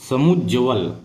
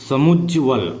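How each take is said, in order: Both takes have the same delivery.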